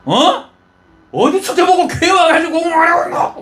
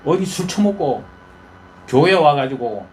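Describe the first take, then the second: First: Much higher, louder scolding with a laugh; scolding rebuke. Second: Said in the usual way. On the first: Retold or imitated. Old priest Eli scolding the praying woman, higher and louder. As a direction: scold her as a drunk in church. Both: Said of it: "그래 갖고 야단합니다".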